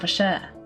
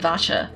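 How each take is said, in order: First: The name is said with French sounds. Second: The name is said with English sounds. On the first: The speaker calls it right. "but with the French sound" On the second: The speaker calls it wrong. "That makes a lot more sense than"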